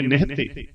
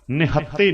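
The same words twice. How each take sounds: First: "ਨਿਹਤੇ" with a single light t; straight, undoubled consonant. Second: "ਨਿਹੱਤੇ" as ni-hat-te, with a held double t; doubled consonant. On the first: Teacher models it straight, single t in "ਨਿਹਤੇ". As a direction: glide straight through "ਨਿਹਤੇ". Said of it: "ਉਹ ਸਿੱਧੇ ਹੀ ਬੋਲ". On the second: Teacher shows what not to say, doubled t in "ਨਿਹੱਤੇ". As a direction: stop on the tt in "ਨਿਹੱਤੇ". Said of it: "ਨਿਹੱਤੇ ਨਹੀਂ ਬੋਲਣਾ". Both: Shown as a demonstration.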